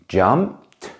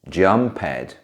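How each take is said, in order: First: The ending is a single t sound. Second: The ending is an extra syllable, like ed. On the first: The speaker calls it right. "Usually the ending is pronounced like a t sound" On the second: The speaker calls it wrong. "A very common mistake is to pronounce it like ed"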